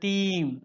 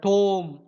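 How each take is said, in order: First: The vowel sounds like ee. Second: The vowel sounds like oh. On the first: This is an earlier pronunciation. "டைம் வந்து டீம் அப்படின்னு இருந்தது" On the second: This is a later historical pronunciation. "Shakespeare பேர்ல டோம் அப்படின்னு pronounce பண்ணியிருக்காங்க"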